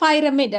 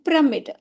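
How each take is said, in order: First: The first syllable has an 'eye' vowel. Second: The first syllable has a short 'i' vowel. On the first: The speaker calls it wrong. "இந்த பைரமிட் அப்படின்னு படிக்கிறது இல்லை" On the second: The speaker calls it right. "இந்த இடத்துல நம்ம ஒய்யை ஐன்னு சொல்ல மாட்டோம். இது பிரமிட்"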